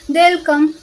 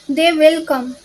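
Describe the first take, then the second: First: The words 'they will' are contracted to 'they'll'. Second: The words 'they will' are said in full. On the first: It sounds smoother and more natural. The speaker calls it right. "contractions make your English sound smoother and more natural" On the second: It may sound robotic. The speaker calls it wrong. "native speakers rarely say"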